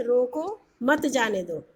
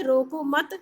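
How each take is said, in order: First: "रोको" then a clear pause, "मत जाने दो" run together, slowly; pause after रोको. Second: "रोको मत" run together, then a pause before "जाने दो"; group रोको मत, then break; pause after मत. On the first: Teacher showing a comma after रोको, slow pause. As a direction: break after रोको so it means stop him. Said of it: "रोको के बाद हमने कॉमा लगा दिया". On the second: Teacher showing a comma after मत, pause there. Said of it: "फिर हमने कॉमा लगा दिया". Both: Shown as a demonstration.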